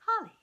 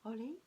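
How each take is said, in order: First: "Holly" said like the English name, high and loud; corrected pronunciation. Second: "Holi" as a doubtful question, rising; unsure try. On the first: Reader accepts the camerawoman's correction, "Holly". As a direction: land firmly on "Holly" like the plant. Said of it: "I think it's just Holly". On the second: Reader asks the children how to say "Holi". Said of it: "How do you say that?". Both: Shown as a demonstration.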